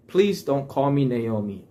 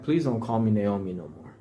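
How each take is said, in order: First: Said in the usual way. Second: Softer, lower, humbly pleading; calm and humble. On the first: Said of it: "I'm sure she said it in a more". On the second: Retold or imitated. Naomi asks the townsfolk quietly, calm and humble. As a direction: ask gently, with no fight left. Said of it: "humble way".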